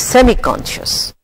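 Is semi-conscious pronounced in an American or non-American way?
non-American. The word is said in a non-American way.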